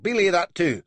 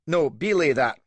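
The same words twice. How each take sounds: First: Loud, high "belay" dropping; belay stressed, falling; frustrated countermand. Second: Loud, high "belay" falling; belay punched and dropped; angry countermand. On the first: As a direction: call it off again in frustration. Countermands again. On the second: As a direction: cancel the order in a rage. Countermands his order. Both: A narrator's reading.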